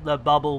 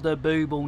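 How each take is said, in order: First: The first vowel is a short uh sound. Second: The first vowel is a long oo sound. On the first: The speaker calls it wrong. "not the Bubble" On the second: The speaker calls it right. "we know it's called the Booble"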